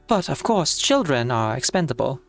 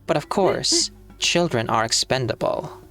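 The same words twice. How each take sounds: First: It is read in the speaker's natural voice. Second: It is read in a put-on character voice. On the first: "I'll do this in my own voice" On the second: "I guess that should be Constantine"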